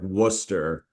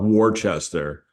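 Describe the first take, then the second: First: The name is said with letters dropped. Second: The name is sounded out letter by letter. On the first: This is how people there say it. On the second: This is how it is written.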